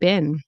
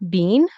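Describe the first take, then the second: First: The vowel is short, like in 'bin'. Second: The vowel is long, like in 'bean'. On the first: The speaker calls it wrong. "Americans will pronounce it like bin" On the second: The speaker calls it right. "it's B E E N, bean"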